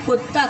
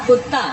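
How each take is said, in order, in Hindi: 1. पहला स्वर 'u' की ध्वनि है। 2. पहला स्वर 'u' की ध्वनि है।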